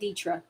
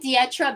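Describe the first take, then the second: First: The I and E are blended together. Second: The I and E are sounded separately. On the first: The speaker calls it wrong. "than Dietra" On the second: The speaker calls it right. "So I pronounce the I and the E. ... I like Dietra better"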